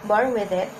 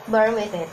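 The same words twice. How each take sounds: The two takes are said the same way.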